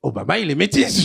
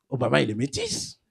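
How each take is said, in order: First: "Obama, il est métis" said out clearly at normal volume; insistent restatement of "Obama, il est métis"; emphatic repeat. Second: Low, soft musing; understated, hushed discovery; quiet realization. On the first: Shown as a demonstration. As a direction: repeat "métis" firmly so the audience gets it. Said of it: "je le dis une deuxième fois". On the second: Retold or imitated. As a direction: say it low, as if thinking to yourself. First, musing take of repeated line.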